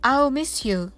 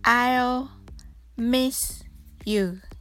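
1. このフレーズは少し速く言います。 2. このフレーズはゆっくり言います。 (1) "次に少し早く言ってみましょう" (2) "それではゆっくり練習してみましょう"

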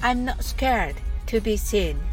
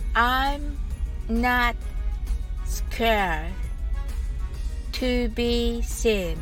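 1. このフレーズは速く話されています。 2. このフレーズはゆっくり話されています。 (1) "次に早く言ってみましょう。" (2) "はじめはゆっくりです。"

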